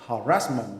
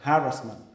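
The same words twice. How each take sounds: First: The stress is on the second syllable. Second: The stress is on the first syllable. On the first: "I used to say harassment" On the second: "it should be the emphasis for the first uh, syllable"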